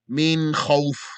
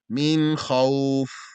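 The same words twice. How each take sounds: First: The vowel is said hard and cut short. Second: The vowel is said softly and drawn out. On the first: The speaker calls it wrong. "One should not say them hard and fast" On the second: The speaker calls it right. "soft and easy"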